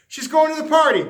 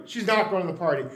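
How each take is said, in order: First: Loud, higher, bright decision; eager yes. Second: Said in the usual way. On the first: Acted. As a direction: flip to yes with energy. Narrator flips between decisions.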